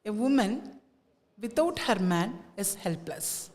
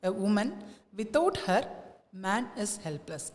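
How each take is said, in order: First: There is a pause after the word 'man'. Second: There is a pause after the word 'her'. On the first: Without the man, the woman is helpless. "ആ പുരുഷനില്ലെങ്കിൽ വിമൻ വിമൻ helpless ആണ് എന്നാണ് ഉദ്ദേശിക്കുന്നത്" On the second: Without the woman, the man is helpless. "അവൾ ഇല്ലാതെ മാൻ ഹിസ് helpless എന്നാണ് ഉദ്ദേശിക്കുന്നത്"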